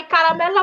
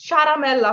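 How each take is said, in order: First: কারামেল্লা starting with a hard k; hard k reading. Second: চারামেল্লা starting with a ch sound; mistaken ch reading. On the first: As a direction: say কারামেল্লা with k as the first sound, not ch. (কারামেল্লা, শুরুতে 'ক' ধ্বনি) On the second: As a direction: say চারামেল্লা wrongly, with ch in place of k. (চারামেল্লা, শুরুতে 'ক'-এর বদলে ভুল 'চ' ধ্বনি) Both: Shown as a demonstration. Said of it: "চারামেল্লা পড়ি না".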